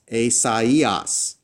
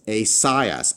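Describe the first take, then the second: First: The first two vowels are said as separate sounds. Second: The first two vowels merge into one sound. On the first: The letters are separate, not a diphthong. The speaker calls it right. "Do you see how I'm pronouncing each letter separately?" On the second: The letters form a normal diphthong. The speaker calls it wrong. "I would pronounce the alpha iota together as I"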